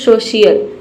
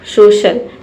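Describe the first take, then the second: First: The ending has two syllables, 'shee-ul'. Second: The ending is a single syllable, 'shul'. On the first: The speaker calls it wrong. "सोशियल कोई word होता है नहीं" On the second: The speaker calls it right. "आप पहले पढ़िए सोशल"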